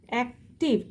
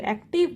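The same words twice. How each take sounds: First: "active" in two separate beats, ac, tive; split syllables. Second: Said in the usual way. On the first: Shown as a demonstration. Teacher counting syllables for the class, "active" split ac, tive. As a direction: pause in the middle of "active". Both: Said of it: "two syllable are presenting here".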